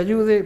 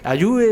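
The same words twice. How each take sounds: First: The middle d sound is clearly said. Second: The middle d sound is left out. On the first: "en vez de ayude" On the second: "ya la D se pierde en ayude"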